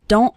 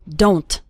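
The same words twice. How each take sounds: First: The final T is a sudden stop. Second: The final T is clearly released. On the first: The speaker calls it right. "It's more of a stop at the back of your throat" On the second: The speaker calls it wrong. "don't say don't"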